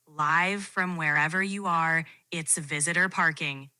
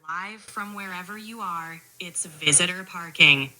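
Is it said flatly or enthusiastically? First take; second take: flatly; enthusiastically. First: It is said in a flat, plain way. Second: It is said with much more enthusiasm.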